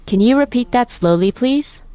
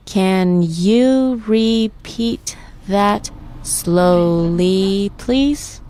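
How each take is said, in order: First: Said in the usual way. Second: Very slow, "Can you repeat that slowly, please" pulled apart; syllable by syllable. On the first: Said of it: "I'll say the phrase or sentence". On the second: Shown as a demonstration. Teacher leading practice of the whole sentence, syllable by syllable. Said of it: "Let's break it down by syllable".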